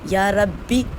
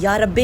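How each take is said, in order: First: The word ends with a long 'ee' vowel. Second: The word ends with an 'eh' vowel. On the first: The speaker calls it right. "ठीक है।" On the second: The speaker calls it wrong. "नहीं पढ़ना"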